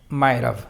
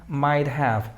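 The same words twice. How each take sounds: First: The word have is reduced and linked. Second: The word have is said in full. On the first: "Pronunciación informal y como comúnmente se habla" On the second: "Pronunciación formal"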